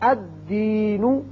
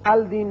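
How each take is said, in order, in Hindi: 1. L की आवाज़ नहीं है; D की आवाज़ दोहरी होती है। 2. D से पहले L की साफ़ आवाज़ आती है।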